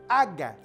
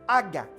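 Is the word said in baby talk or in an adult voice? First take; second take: baby talk; baby talk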